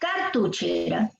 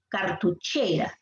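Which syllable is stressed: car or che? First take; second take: car; che. First: The stress is on the syllable car. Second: The stress is on the syllable che. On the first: The speaker calls it wrong. "Si fuese en car, sería cartuchera" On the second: The speaker calls it right. "La fuerza de voz está en la sílaba che"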